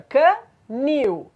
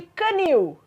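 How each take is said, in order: First: CANIL slowly split in two, can... NIL, stress on the last syllable. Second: Said in the usual way. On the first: Shown as a demonstration. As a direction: break CANIL apart to show its final stressed syllable. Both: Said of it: "A sílaba tônica é a última".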